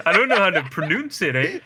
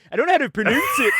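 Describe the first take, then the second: First: Put-on laughing Canadian accent with a tagged-on "eh"; raised, giggly Canadian caricature. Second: Quick, high-pitched Canadian imitation; louder, higher Canadian send-up; mock Canadian accent. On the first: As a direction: play up the Canadian, half laughing. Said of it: "like, stereotypical Canadian". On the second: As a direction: tease with an exaggerated Canadian accent, laughing. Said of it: "that sounded Canadian as hell".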